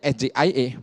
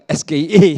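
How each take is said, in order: First: The letters are named with English letter names. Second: The letters are named with Indonesian letter names. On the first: The speaker calls it right. "Harusnya kan menyebutnya S J I A" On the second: The speaker calls it wrong. "bukan S K I A gitu"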